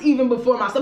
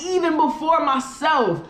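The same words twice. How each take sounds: First: The phrase is said plainly, without extra force. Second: The phrase is said with strong, forceful emphasis. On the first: "not just even before myself" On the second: "but really like even before myself"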